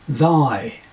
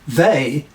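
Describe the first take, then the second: First: The vowel sounds like 'eye' in my. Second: The vowel sounds like 'ay' in day. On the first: This is the Middle English pronunciation. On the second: This is the modern pronunciation.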